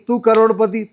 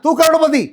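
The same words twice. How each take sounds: First: It is said in a calm, even voice. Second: It is said in a forceful, angry voice. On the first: "बिल्कुल ऐसे बोलना है" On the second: "फिर कभी गुस्से में बोलना है"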